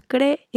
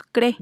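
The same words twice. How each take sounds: First: "cree" in two syllables, cre-e; "cree" as cre, then a separate e; split hiatus. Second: "cre" as one short syllable; "cre", the double e shrunk to one; merged vowels. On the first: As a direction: say "cree" with the second e on its own. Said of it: "separamos las dos vocales". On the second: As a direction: say "cre" with a single e. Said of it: "no decimos cre". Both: Shown as a demonstration.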